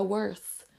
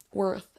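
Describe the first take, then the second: First: WORTH ending in 's', like 'worse'; counterexample, WORTH with a hissed S for TH; wrong TH. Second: WORTH with a true final 'th'; corrected model, tongue to teeth ending WORTH. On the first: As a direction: say WORTH as 'wurs'. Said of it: "c'est pas worth". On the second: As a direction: say WORTH with TH rather than S. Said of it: "ce son T H". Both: Shown as a demonstration.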